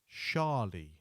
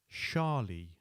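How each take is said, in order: No difference in how they are said.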